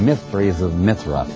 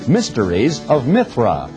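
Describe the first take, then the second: First: The sounds of the phrase are slurred together. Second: Each sound of the phrase is said clearly. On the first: The speaker calls it wrong. "If you don't say it carefully" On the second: The speaker calls it right. "you got to say this carefully"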